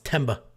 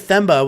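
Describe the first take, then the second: First: The name begins with a plain 't' sound. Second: The name begins with a 'th' sound. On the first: "I think the H is silent. It's Temba" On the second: "I can't say Themba without thinking I have like a swollen tongue or a lisp"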